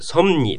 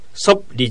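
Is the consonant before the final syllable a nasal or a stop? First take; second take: nasal; stop. First: The word has a nasal m before ni. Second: The word keeps a p stop before li. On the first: The speaker calls it right. "ソムニですね" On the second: The speaker calls it wrong. "ソプリじゃなくて"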